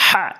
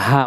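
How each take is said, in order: First: হা with a strong Arabic h from mid-throat; correct pronunciation. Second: হা with a light, ordinary h; wrong pronunciation. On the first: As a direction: push a tight, rasped h in হা. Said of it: "বলতে হবে হা". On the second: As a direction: say হা as a plain Bengali 'ha'. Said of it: "যদি বলেন হা, অর্থ সঠিক হবে না". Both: Shown as a demonstration.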